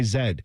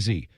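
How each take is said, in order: First: The letter is said with a British pronunciation. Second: The letter is said with an American pronunciation. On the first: "they go X, Y, Z" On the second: "We say X, Y, Z"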